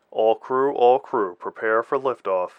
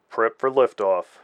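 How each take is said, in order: First: Flat radio announcement; even, toneless crew call. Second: Flat, slow monotone over the comm. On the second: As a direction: toneless radio operator, slow and flat. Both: A narrator's reading. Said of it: "a flat voice alerted her".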